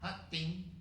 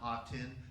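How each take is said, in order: First: The name is said with Vietnamese sounds and tones. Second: The name is said with plain English sounds. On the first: The speaker calls it right. "That's how you say Ha Tin" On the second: The speaker calls it wrong. "I'm horrifically mispronouncing"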